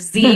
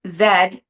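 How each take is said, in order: First: The letter is said the American way, zee. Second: The letter is said the Canadian way, zed.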